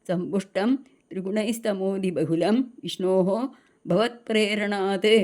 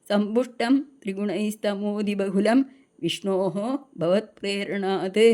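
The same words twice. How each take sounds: Both takes have the same delivery.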